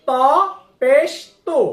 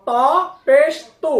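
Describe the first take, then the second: No difference in how they are said.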